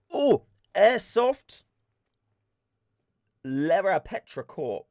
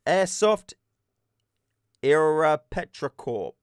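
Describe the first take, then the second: First: Slow, careful "Airsoft Lera Petra Corp" sounding out each syllable; first careful try at the name; careful name reading. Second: "Era Petra" said slowly, dropping the L; second careful try at the name. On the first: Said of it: "Did I say that wrong?". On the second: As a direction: try again, slow and unsure. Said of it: "don't know how to say that word". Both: Shown as a demonstration.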